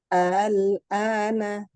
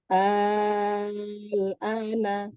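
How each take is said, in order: First: The second hamza is softened, not fully pronounced. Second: The second hamza becomes a long six-count vowel. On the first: "diringankan hamzah kedua atau tashil" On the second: "diganti hamzah kedua dengan mat enam harokat"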